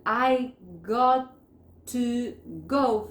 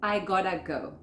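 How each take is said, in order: First: GOT TO GO in slow separate words; "got to" fully pronounced, word by word; full form. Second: GOT TO merged into GOTTA; connected native form. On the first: Teacher citing the long form for learners, GOT TO distinct. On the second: Teacher showing what natives say, GOTTA as one word. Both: Shown as a demonstration. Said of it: "Van a decir".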